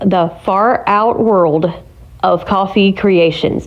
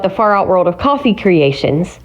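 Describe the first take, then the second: First: The name is said at a slow pace. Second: The name is said at a fast pace.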